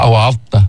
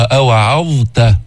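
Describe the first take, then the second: First: أوعظت rushed, the ظ almost merging into the ت; rushed near-assimilation. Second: أوعظت slowly, the ظ held before the ت; careful reading; clear ẓā. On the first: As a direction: hurry through أوعظت. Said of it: "شو بتطلع". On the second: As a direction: give the ظ in أوعظت its time. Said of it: "الضاء بدها وقت لتلفظها". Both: Shown as a demonstration.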